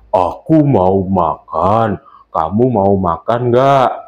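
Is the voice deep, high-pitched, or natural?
deep. The voice is deep and booming, like a bass. A big character, such as a father, is speaking. "kita membuat suara menjadi suara bass"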